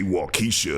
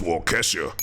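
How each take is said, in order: First: "Waukesha" with a long ee, kee; wrong pronunciation. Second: "Waukesha" with a short e, kesh; correct pronunciation. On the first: Host showing how not to say it, "Waukesha" as waw-KEE-sha. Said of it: "Don't say Waukesha". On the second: Host showing the town's right name, "Waukesha" as WAW-kesh-uh. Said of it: "it's Waukesha". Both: Shown as a demonstration.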